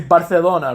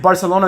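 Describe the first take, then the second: First: The c is said with a lisped th sound. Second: The c is said with a plain s sound. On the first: "they say Barcelona ... have a lisp" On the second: "They don't say Barcelona"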